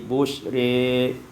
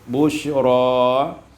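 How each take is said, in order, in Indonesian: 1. Vokal akhir condong ke arah e. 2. Vokal akhir adalah a terbuka yang biasa.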